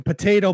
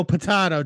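First: "potato" said po-TAY-toe; "potato" with the long A, po-TAY-toe. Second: "potato" said po-TAH-toe; "potato" with the broad A, po-TAH-toe. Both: Shown as a demonstration. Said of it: "ever met anybody that says potato".

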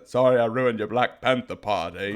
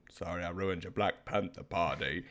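First: Lightly voiced Forrest Gump line, a touch louder; deadpan movie quote to defuse anger; quoting Forrest Gump to cheer someone up. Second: Soft, low mock Forrest Gump line; mom's Forrest Gump quote. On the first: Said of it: "from Forrest Gump". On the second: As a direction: mom quietly quoting the movie after a pause. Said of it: "Then she'll be like".

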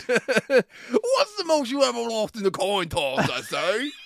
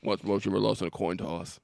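First: High, slow, hammed-up English; mock English accent. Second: Low, lightly voiced menacing villain; Javier Bardem. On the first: Bad actor stealing villain's lines, high slow mock English. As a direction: overplay the villain's line as a silly Englishman. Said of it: "with less English accent". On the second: Podcaster quoting a gas station coin toss scene, low villain impression. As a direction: drop low for a sparse killer impression. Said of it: "It feels like Javier Bardem in".

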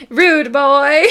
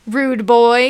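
First: Higher, a bit louder, pointed accusation; playful accusing rude boy. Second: Said in the usual way. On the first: Shown as a demonstration. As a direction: jab the words at him. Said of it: "while pointing at him". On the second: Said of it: "you say back at him".

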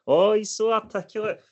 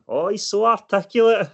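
First: High, cooing patronising voice; pinch-the-cheek baby talk, mocking; mock cheek-pinching praise. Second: High, sing-song fake admiration; patronising mock praise. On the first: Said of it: "grab my fucking cheek and go". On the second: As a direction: coo it like talking down to a child. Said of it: "they speak to me and they go".

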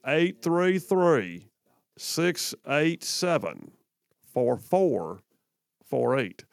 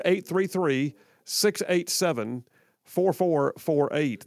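First: Very slow, drawn-out digits with long pauses; nice slow accent. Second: Said in the usual way. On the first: Shown as a demonstration. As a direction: chew each number slowly like molasses. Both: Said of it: "told to slow that down".

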